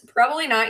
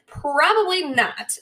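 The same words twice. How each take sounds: First: Said in the usual way. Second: Drawn out "Probably not." slowly, pitched a bit up; slow emphatic answer. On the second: Shown as a demonstration. Host answering her own question slowly and knowingly.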